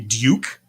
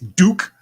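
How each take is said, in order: First: It is said in a British accent. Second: It is said in an American accent.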